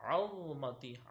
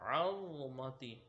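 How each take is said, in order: The two takes are said the same way.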